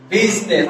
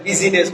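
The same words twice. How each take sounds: First: "বিজনেস" as two syllables, biz-nes; correct pronunciation. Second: "বিজিনেস" in three syllables, bi-zi-nes; incorrect pronunciation. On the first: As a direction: drop the middle "i" of "বিজনেস". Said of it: "আই শব্দটা drop হবে". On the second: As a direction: sound an extra "i" in "বিজিনেস". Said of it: "উচ্চারণটা incorrect". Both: Shown as a demonstration.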